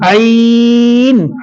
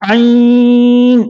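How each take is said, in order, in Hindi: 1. यह शब्द बिना नाक की आवाज़ के बोला जाता है। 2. यह शब्द नाक से बोला जाता है। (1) "इसको नाक में नहीं पढ़ना है" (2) "अक्सर बच्चे इसमें नाक में इसकी आवाज पढ़ते हैं"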